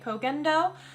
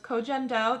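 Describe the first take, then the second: First: The middle consonant is a hard g sound. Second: The middle consonant is a soft j sound. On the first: This is how some other people say it. "I've heard some people say Kogendo" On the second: This is how the speaker herself says it. "That's the way I say it"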